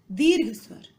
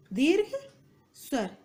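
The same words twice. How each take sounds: First: Said in the usual way. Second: Spaced dictation. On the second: Shown as a demonstration. Teacher repeating term for students, word-by-word dictation. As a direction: dictate the two words separately.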